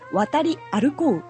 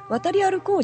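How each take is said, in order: First: Every syllable of the word is pronounced clearly. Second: The word is pronounced loosely and casually. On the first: "語尾の和とかそういうのを非常にはっきり発音してる" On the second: "渡り歩こうじゃなくて"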